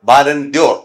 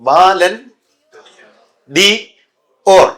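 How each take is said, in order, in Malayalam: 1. d, 'or'-യോട് ചേർന്ന് 'dyor' എന്നു പറയുന്നു. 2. d ഒരു പ്രത്യേക അക്ഷരമായി 'dee' എന്നു പറയുന്നു.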